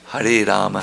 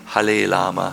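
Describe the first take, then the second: First: The word Rama is said with an R sound. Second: The word Rama is said with an L sound. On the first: "all the letters are there" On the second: "who can only say Hare Lama"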